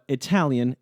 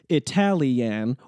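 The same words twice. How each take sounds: First: The ending is reduced to one syllable. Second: The ending is said as two separate syllables. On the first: The speaker calls it right. "When in the flow of speech" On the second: The speaker calls it wrong. "we don't say"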